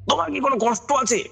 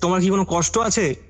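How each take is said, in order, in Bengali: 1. প্রশ্নটি জোরালো গলায় চিৎকার করে বলা হচ্ছে। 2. প্রশ্নটি স্বাভাবিকের চেয়ে একটু জোরে বলা হচ্ছে। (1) "এইরকম একটা ভয়েস দিয়ে উনি চেঁচিয়ে বললেন।" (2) "এবার একটু জোরে বললেন ভয়েসটা করে।"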